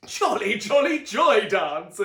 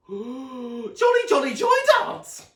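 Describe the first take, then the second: First: Loud, slow chanted shout; the family shouts together, loud chant; group shout. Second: Very high, loud squeal; Sonny squeals for the dance, very high loud squeal; excited squeal. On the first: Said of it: "everyone but Luna shouted". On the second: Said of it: "squealed Sonny excitedly". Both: A narrator's reading.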